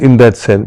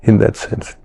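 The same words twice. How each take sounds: First: Said in the usual way. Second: Softer, almost breathed repeat; whispered afterthought. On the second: Real, not acted. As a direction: let the phrase fade into a whisper. Repeated phrase, then whispered.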